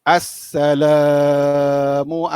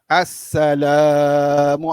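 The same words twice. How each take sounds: The two takes are said the same way.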